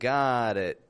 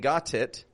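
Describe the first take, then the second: First: The T in got is a quick flap. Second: The T in got is a clear, full T. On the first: "but I'm saying got it. That's the flap T" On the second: "I'm not pronouncing the T in got as a T. I'm not saying got it"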